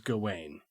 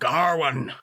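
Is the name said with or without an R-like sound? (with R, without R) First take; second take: without R; with R. First: The name is said without an R-like sound. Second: The name is said with an R-like sound. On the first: "I have always read it in my head as Gawain" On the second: "in the movie, everybody calls him Garwin"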